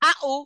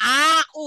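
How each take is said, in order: First: The two sounds are said quickly together. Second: The two sounds are drawn out slowly. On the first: The speaker calls it right. "তাড়াতাড়ি আ উ" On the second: The speaker calls it wrong. "দেরি করা যাবে না, আ উ এরকম না"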